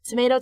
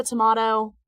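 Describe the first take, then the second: First: "Tomato" with an AY vowel; first variant pronunciation. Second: "tomato" with an AH vowel; second variant pronunciation. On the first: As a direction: say "Tomato" as tuh-MAY-toh. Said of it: "He can pronounce it". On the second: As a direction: say "tomato" as tuh-MAH-toh. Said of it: "I can pronounce it". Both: Shown as a demonstration.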